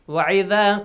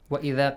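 First: The second syllable starts with a different throat sound. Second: The second syllable starts with a glottal stop. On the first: The speaker calls it wrong. "if you like recite it this way" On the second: The speaker calls it right.

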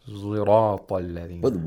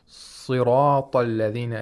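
First: The first consonant is a heavy z sound. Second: The first consonant is a plain s sound. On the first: "the sod is pronounced like a zay with tafkhim" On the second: "Siratalladhina is a lot more difficult"

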